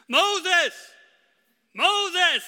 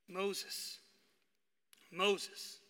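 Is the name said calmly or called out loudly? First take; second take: loudly; calmly. First: The name is called out loudly, exclaiming. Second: The name is said calmly, without exclaiming.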